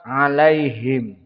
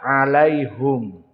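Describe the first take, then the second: First: The vowel after the h is i. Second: The vowel after the h is u. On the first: This is the reading of the majority of reciters. "Mereka jumhur membaca dengan kasratu ha" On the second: This is the reading of Ya'qub and Hamzah. "maka mereka membaca ha bidammah"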